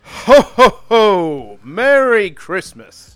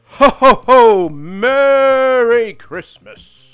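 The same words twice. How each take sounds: First: Booming ho ho ho, then a slow, weak Merry Christmas; Santa voice. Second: Loud, high ho ho ho, very slow Merry Christmas; big jolly Santa, held right to the end; booming Santa voice. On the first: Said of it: "Give me your Santa voice". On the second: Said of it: "Hey, there we go". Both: Shown as a demonstration.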